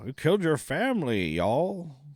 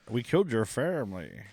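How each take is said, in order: First: It is said in a Western drawl. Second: It is said without a Western accent.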